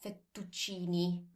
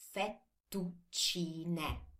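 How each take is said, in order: First: The word ends in an 'ee' vowel. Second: The word ends in an 'eh' vowel. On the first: The speaker calls it wrong. "It's not fettuccini" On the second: The speaker calls it right. "same thing as for tagliatelle"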